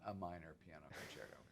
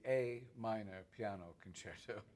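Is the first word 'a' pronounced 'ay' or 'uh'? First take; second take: uh; ay. First: The first word is a weak 'uh' sound. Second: The first word is a full 'ay' sound. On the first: It means some minor concerto, not a key. The speaker calls it wrong. "not a minor piano concerto" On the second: It names the key of the concerto. The speaker calls it right. "that's the A minor piano concerto"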